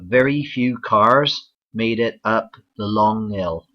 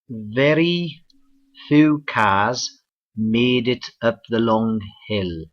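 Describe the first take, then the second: First: It is said in a Bristol accent. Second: It is said in a Cardiff accent. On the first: "the southwest, for example in Bristol" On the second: "let's go across the border to Cardiff, Wales"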